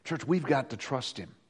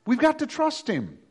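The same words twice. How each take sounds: First: Softer, lower Church, we've got to trust him; soft plea. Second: Higher, stress on got; emphatic repeat. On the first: Preacher urging the church softly. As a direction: say it gently to the church. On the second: Preacher pressing the point to the church, stress on got. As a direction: push got up high. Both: Shown as a demonstration.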